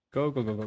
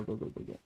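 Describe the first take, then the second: First: Said in the usual way. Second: Go, go, go, go whispered with no voice; whispered hurry-up. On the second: Shown as a demonstration. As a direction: breathe go, go, go, go as a whisper.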